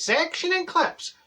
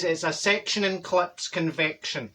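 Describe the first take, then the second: First: Much higher, slow, puzzled repeat; baffled echo. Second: Said in the usual way. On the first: Retold or imitated. [name] repeating the hairdresser's words, baffled and drawn out. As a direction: echo the odd words in disbelief. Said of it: "I says". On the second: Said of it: "He says".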